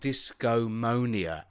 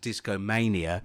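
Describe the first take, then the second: First: The middle of the word sounds like 'monia'. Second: The middle of the word sounds like 'mania'. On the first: The speaker calls it right. "It's called Discomonia, as in pneumonia" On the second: The speaker calls it wrong. "what we were referring to as Discomania"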